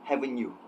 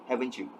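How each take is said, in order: The two takes are said the same way.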